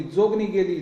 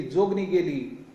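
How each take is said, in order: First: Understated narrated cry of the crowd; echoing outcry. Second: Slow, understated repeat of the cry; fading echoed outcry. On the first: Crowd's cry ringing out everywhere, understated outcry. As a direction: voice the crowd's cry, held in check. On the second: Crowd's cry echoing away, slow understated outcry. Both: A narrator's reading. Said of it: "सर्वत्र एकच ओरड घुमली".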